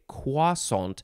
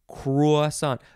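First: The word begins with no R sound. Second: The word begins with a clear R sound. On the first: "say it all French and fancy, I say croissant. There's no R sound in there" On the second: "it says K-R-W-A for the first part"

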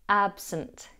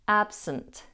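Both takes have the same delivery.

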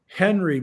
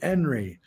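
First: The word begins with an audible H sound. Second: The word begins without any H sound.

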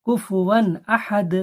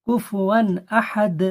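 Both takes have the same delivery.

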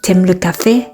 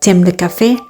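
First: Tu is reduced and joined onto aimes. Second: The same.

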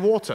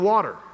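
First: Water is said in a British accent. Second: Water is said in an American accent.

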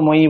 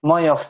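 First: The word ends with a long 'ee' vowel. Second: The word ends with a final 'f' sound. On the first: The speaker calls it wrong. "ময়ী বললে হবে না" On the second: The speaker calls it right. "ফয় হসন্ত উচ্চারণ করলে যেমন হয়"

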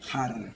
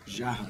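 First: The word begins with a harsh throaty 'kh' sound. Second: The word begins with a soft 'zh' sound. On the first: This is the Spanish pronunciation. "Você fala" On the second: This is the Portuguese pronunciation. "a palavra a gente falou jarra"

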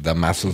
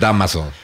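First: The stress is on the second syllable. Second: The stress is on the first syllable. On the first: The speaker calls it wrong. "yo lo había visto sin acento" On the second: The speaker calls it right. "Pero sí es Dámaso"

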